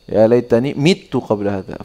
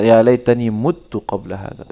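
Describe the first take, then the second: First: The verb begins with an mi sound. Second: The verb begins with an mu sound. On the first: "Dua-duanya ada di Al-Qur'an" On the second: "Fi qira'ah"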